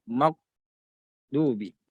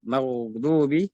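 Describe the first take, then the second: First: "maghdubi" with gh stopped, a gap before du; cut-off ghain. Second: "Maghdubi" with gh flowing on into du; flowing ghain. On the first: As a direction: break "maghdubi" off after "mag". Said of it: "Jangan dibaca terputus". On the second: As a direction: let the gh of "Maghdubi" run on. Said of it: "huruf tebal dan mengalir". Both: Shown as a demonstration.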